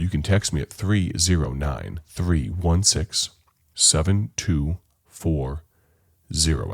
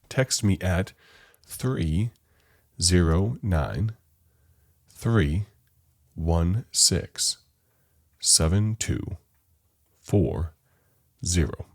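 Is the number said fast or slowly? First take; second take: fast; slowly. First: The number is said fast. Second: The number is said slowly.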